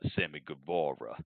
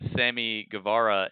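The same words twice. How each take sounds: First: The name is said in a dramatic, showy way. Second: The name is said plainly, in a normal voice.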